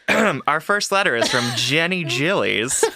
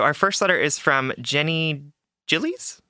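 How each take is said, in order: First: The sentence is said firmly, with confidence. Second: The sentence is said hesitantly, without confidence. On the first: The speaker calls it right. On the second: The speaker calls it wrong.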